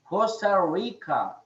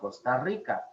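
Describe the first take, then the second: First: The R is an English-style R sound. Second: The R is a trilled Spanish R sound. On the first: The speaker calls it wrong. "They will say Costa Rica" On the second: The speaker calls it right. "instead of Costa Rica"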